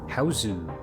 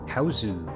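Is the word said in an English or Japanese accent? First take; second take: Japanese; Japanese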